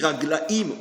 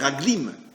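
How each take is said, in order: First: The word ends with a two-vowel 'aim' syllable. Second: The word ends with a single-vowel 'im' syllable. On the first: This is the usual reading. "Comme on dit Raglaïm" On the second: This reading follows the spelling. "on pourrait dire Raglim"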